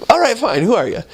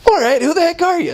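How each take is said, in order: First: Higher, impatient, with a stronger word in its place; hammed-up irritated demand; exasperated woman, stronger. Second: Much higher, fed-up demand; mock exasperation at the door; exasperated woman. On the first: The woman's real exasperated words to the missionaries, higher and impatient. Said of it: "but it's like". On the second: Woman at the door loses patience with the missionaries, high and fed-up. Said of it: "she didn't say the word heck".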